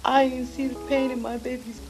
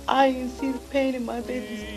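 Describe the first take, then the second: No difference in how they are said.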